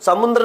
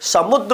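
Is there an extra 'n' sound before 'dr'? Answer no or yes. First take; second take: yes; no. First: An extra n sound comes before the dr. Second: No extra n sound comes before the dr. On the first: The speaker calls it wrong. "समुद्र नहीं" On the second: The speaker calls it right. "समुद्र होता है"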